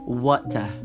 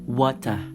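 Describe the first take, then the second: First: British accent: weak r, clear t. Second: British accent: weak r, clear t.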